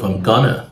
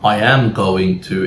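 First: The words are shortened and run together. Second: Every word is said fully and stressed. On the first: The speaker calls it right. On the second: The speaker calls it wrong.

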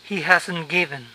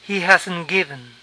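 No difference in how they are said.

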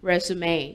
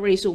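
First: It is said as three syllables, rez-oo-may. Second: It is said as two syllables, re-zoom. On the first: The speaker calls it right. "มันอ่านว่า" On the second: The speaker calls it wrong. "อย่าอ่านว่า"

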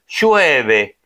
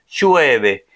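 No difference in how they are said.

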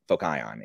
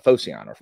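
First: The name is pronounced the Greek way. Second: The name is pronounced the English way.

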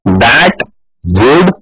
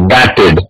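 First: It is said as two separate full words. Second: It is said as one contracted word. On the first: "that और would ये दो words को हमें एक साथ जोड़ना है" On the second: "तो that would बनेगा that'd"

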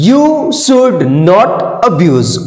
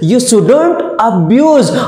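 First: Should and not are said as separate full words. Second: Should and not are joined into one short word. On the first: "मैंने English में बोला you शुड नॉट abuse" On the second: "अब इसको fluent बोलना है, combined words use करना है"

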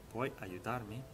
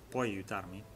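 No difference in how they are said.

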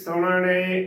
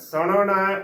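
First: The word ends in an e vowel. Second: The word ends in an a vowel. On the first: The speaker calls it wrong. "ਨਾ ਕਿ ਸੁਣਨੇ ਉਚਾਰਨ ਕਰਨਾ, ਗਲਤ ਉਚਾਰਨ ਹੋਵੇਗਾ" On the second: The speaker calls it right. "ਨਾਣੇ ਨੂੰ ਲਾਵਾਂ ਅਣਾ ਸੁਣਨਾ ਉਚਾਰਨ ਕਰਨਾ ਹੈ"

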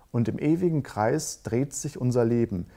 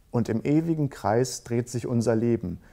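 No difference in how they are said.

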